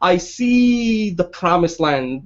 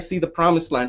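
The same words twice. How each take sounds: First: It is said with strong, powerful emphasis. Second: It is said plainly, without emphasis.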